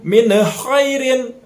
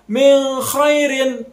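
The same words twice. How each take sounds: First: The n is given a bouncing, echoing release. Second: The n is held with a nasal hum. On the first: "atau dipantulkan" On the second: "Ataupun didengungkan"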